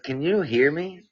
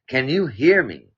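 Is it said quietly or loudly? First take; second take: quietly; loudly. First: It is said at normal, quieter volume. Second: It is said much louder.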